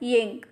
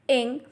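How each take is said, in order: First: It starts with a y glide before the vowel. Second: It starts directly with the vowel, no y. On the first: The speaker calls it wrong. "and not ying" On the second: The speaker calls it right. "Repeat after me ing"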